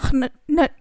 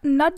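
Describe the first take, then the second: First: An extra consonant sound comes before the n. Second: The word begins directly with the n sound. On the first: This is how the word was said long ago. "It was एच एन यू टी, नट ऐसा" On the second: This is how the word is said today. "नट जिसे हम बोलते हैं"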